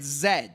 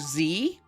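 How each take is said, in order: First: The letter is said as British zed. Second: The letter is said as American zee.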